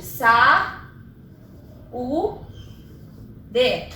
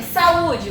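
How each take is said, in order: First: "Sa... u... d", each syllable alone with long pauses. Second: Said in the usual way. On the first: Shown as a demonstration. Teacher dividing saúde for students, syllable by syllable. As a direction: break "Sa, u, d" into three separate beats. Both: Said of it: "vamos separar a sílaba de saúde".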